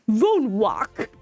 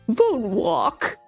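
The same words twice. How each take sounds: First: It is said in the speaker's plain accent. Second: It is said in a fake British accent.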